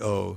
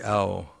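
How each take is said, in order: First: The vowel is a plain, steady 'o'. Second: The vowel glides, sounding like 'ow'. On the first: This is the Bengali-style pronunciation. "when you use a Bengali one, it's o" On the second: This is the original Sanskrit pronunciation. "the actual Sanskrit pronunciation is owl"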